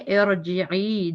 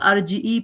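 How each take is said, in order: First: The first vowel is an 'i' sound. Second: The first vowel is an 'a' sound. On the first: The speaker calls it right. "हमजा पे जेर ... हम इसको पढ़ेंगे इर्जिई" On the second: The speaker calls it wrong. "कई लोग गलत पढ़ते हैं कई लोग अर्जी पढ़ लेते हैं"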